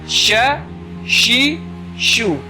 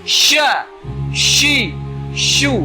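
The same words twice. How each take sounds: First: Only the last syllable is said with rounded lips. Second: All three syllables are said with rounded lips. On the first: The speaker calls it right. "Cukup senyum saja" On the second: The speaker calls it wrong. "hurufnya mengikuti gitu. Apa bibir itu mengikuti. ... itu salah"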